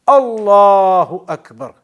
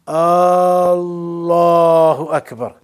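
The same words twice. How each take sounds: First: The opening vowel is short, not drawn out. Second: The opening vowel is stretched out long. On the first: The speaker calls it right. "It's Allahu Akbar" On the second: The speaker calls it wrong. "not Allahu Akbar. The ah at the beginning completely changes it"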